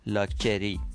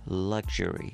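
First: Iranian accent, with a 'ch' sound in the middle. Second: North American accent, with a 'zh' sound in the middle.

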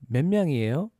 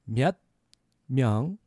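First: The phrase is spoken at a fast pace. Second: The phrase is spoken at a slow pace. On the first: "A little faster" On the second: "So a little slower"

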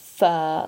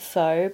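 First: The word sounds like 'fur'. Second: The word does not sound like 'fur'. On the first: It names the noodle soup. The speaker calls it right. "It's pronounced phở, like a fur coat" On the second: It means prostitute. The speaker calls it wrong. "Don't pronounce it pho because in Vietnamese that means prostitute"

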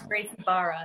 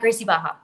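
First: The R sounds in the second word are pronounced. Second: The R sounds in the second word are dropped.

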